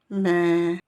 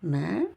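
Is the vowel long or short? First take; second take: long; short. First: The vowel after m is long. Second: The vowel after m is short. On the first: "Avec le elif prolongé" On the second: "Les lettres mime avec sa voyelle E"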